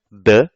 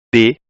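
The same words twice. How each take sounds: First: 'd' as a bare sound with a neutral vowel; isolated 'd' phoneme. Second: 'd' said as its letter name, 'dê'; 'd' with a clear ê vowel. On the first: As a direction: sound out 'd' as 'duh', not its name. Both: Shown as a demonstration. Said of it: "eu tenho cinco fonemas".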